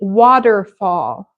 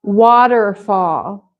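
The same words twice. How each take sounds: First: The middle consonant sounds like a soft D. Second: The same.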